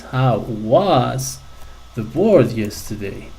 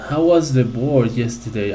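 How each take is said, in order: First: "was" drawn out, then a pause; stress on was. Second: Said in the usual way. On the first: Shown as a demonstration. Teacher asking the class to notice the past form, stressing "was". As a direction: lean on "was" and hold it before going on. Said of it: "Can you notice?". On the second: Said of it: "Once again".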